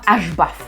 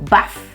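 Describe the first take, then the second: First: The letter H is spoken before the b sound. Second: The word starts directly with the b sound. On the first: The speaker calls it wrong. "ça ne se prononce pas H-baff" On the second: The speaker calls it right. "le H est silencieux"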